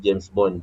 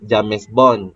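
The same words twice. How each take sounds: First: It is sounded like the English name. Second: It is sounded letter by letter as Malay spelling. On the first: The speaker calls it right. "kita kena sebut James Bond" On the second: The speaker calls it wrong. "Eh salah lah"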